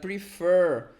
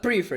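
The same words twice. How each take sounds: First: The stress is on the second syllable. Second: The stress is on the first syllable. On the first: The speaker calls it right. "It's like prefer. We have stress on the second syllable" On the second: The speaker calls it wrong. "It's not prefer"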